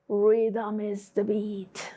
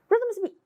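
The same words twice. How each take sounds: First: The sentence is said very slowly. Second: The sentence is said very quickly. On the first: "And really slow?" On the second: "let's say it really fast"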